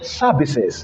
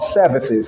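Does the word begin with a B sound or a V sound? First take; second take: B; V. First: The word begins with a B sound. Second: The word begins with a V sound. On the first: "he said services" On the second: "not services"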